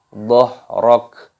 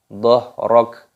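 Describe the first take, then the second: Both takes have the same delivery.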